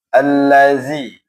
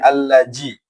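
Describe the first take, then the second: First: The middle consonant is a 'z/dh' sound. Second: The middle consonant sounds like a 'j'. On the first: The speaker calls it right. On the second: The speaker calls it wrong. "zalnya tidak boleh allaji"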